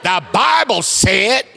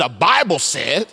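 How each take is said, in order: First: Very slow, high and loud preacher's cry; black Baptist preacher with attitude. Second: Slow, drawn-out Baptist preacher line. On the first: Congregation didn't say it with an attitude, so he shows full Baptist preacher attitude. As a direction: draw it out big, with attitude. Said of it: "say it like a black Baptist preacher". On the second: Preacher coaches the congregation to say it with him, Baptist style. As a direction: say it like a Baptist, lightly put on. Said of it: "Say it like a Baptist person". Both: Shown as a demonstration.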